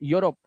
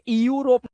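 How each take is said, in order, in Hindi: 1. शब्द की शुरुआत एक ही 'yu' ध्वनि से होती है। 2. पहले स्वर अक्षर अलग-अलग बोले जाते हैं। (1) "ईयू को यू से पढ़ना है" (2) "इसे यूरोप नहीं पढ़ना है"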